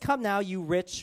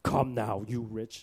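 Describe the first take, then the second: First: It is said in a normal reading voice. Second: It is said in a gravelly Batman voice.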